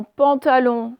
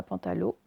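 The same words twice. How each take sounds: First: Pantalon drawn out slowly, nasal on ending; slow careful pantalon, ending in nasal on; correct nasal on. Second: Pantalon mispronounced softly as "pantalo"; wrong o ending. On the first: (pantalon articulé lentement, « on » nasal) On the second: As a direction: say pantalon with plain o, no nasal. (pantalon prononcé « pantalo », sans nasale) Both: Shown as a demonstration. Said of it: "ce n'est pas pantalon".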